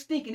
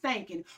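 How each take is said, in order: First: It is said in a standard pronunciation. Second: It is said in a Southern country pronunciation.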